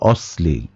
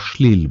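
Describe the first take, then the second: First: The middle consonant is an 's' sound. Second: The middle consonant is an 'sh' sound. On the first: This is the grammatically correct pronunciation. The speaker calls it right. "ব্যাকরণগতভাবে এই শব্দের উচ্চারণ হচ্ছে অশ্লীল" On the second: This is the common everyday pronunciation. The speaker calls it wrong. "আমরা বলার সময় অনেকে অশ্লীল বলি"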